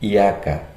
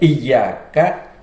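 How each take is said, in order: First: The 'y' sound is single and short. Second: The 'y' sound is doubled and held. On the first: It is your sun. The speaker calls it wrong. "dibaca iyyaka. Ini suatu kesalahan" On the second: It is You alone. The speaker calls it right. "lafaz yang biasanya dibaca iyyaka"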